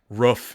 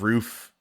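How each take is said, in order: First: It is said with a local regional vowel. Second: It is said with the standard vowel. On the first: "native to his uh voice and accent" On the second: "instead of"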